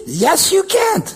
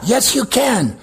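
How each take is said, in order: First: High-pitched mocking devil, CAN'T stressed; acted devil, raised pitch on "can't"; devil's taunt. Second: Said in the usual way. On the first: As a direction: jeer it high like the devil discouraging someone. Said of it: "Le diable, il dit".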